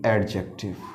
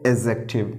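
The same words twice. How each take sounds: First: The d sound is pronounced. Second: The d sound is silent. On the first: The speaker calls it wrong. "ना कि एडजेक्टिव" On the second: The speaker calls it right. "इसे बोला जाता है एडजेक्टिव"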